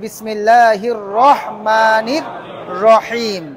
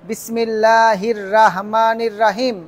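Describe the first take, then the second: First: The R is rounded and heavy, like ro. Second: The R is spread and light, like raa. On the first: The speaker calls it right. "বলতে হবে কি রহমান" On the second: The speaker calls it wrong. "রাহমান বলার কোনো সুযোগ নেই"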